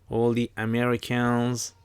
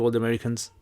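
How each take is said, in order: First: It is said in an American accent. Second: It is said in the speaker's usual accent.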